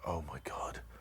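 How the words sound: It is said with fear and urgency.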